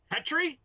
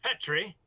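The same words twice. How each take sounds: First: Very high-pitched questioning holler; more insistent name call. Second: Higher-pitched questioning call; calling a name. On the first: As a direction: call out sharply for a missing comrade. Enemy calls second, higher time. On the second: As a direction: call out for a missing comrade. Enemy calls for missing comrade. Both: Acted.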